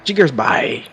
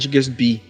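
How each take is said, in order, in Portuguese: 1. A última sílaba soa como 'buy'. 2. A última sílaba soa como 'bee'.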